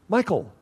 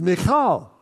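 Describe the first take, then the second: First: The name sounds like the English name Michael. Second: The name does not sound like English Michael. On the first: The speaker calls it wrong. "This name is often mispronounced in English. This is not Michael" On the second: The speaker calls it right. "This is Michal"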